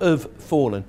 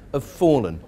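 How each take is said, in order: First: The two words are separated by a break. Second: The two words are joined smoothly together. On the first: The speaker calls it wrong. "We don't break between the two words. Not" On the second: The speaker calls it right. "We join those two together"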